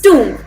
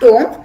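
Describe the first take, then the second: First: The vowel is a long oo sound. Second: The vowel is a short o sound. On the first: The speaker calls it right. "it's pronounced as oo" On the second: The speaker calls it wrong. "It's not tomb"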